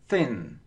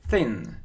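No difference in how they are said.

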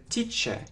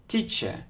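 The two takes are said the same way.

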